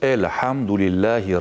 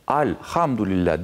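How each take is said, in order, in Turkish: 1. İlk ünlü ince ve ön. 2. İlk ünlü kalın ve arka. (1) "yumuşak okunur" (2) "bu doğru değildir"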